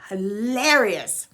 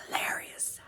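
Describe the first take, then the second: First: Slow, fully voiced, stretched out; lingering on the middle of HILARIOUS; drawn-out emphasis. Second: Hushed whisper, all breath; barely voiced whisper. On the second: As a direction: whisper it as an aside. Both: Real, not acted. Same word whispered, then drawn out.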